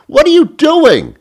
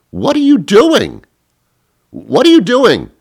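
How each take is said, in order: First: Very high loud what are you doing; piercing exasperated yelp; shrieking disbelief. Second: Squealing incredulous rant; exasperated yell. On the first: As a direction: screech it in outrage. Rant climax. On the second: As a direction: shout it at the screen in disbelief. Exasperated rant at Facebook poster. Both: Retold or imitated.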